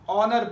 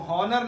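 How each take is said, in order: First: The word begins directly with a vowel sound. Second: The word begins with an audible h sound. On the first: The speaker calls it right. "हम ऑनर पढ़ते हैं" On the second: The speaker calls it wrong. "इसको हॉनर नहीं पढ़ते"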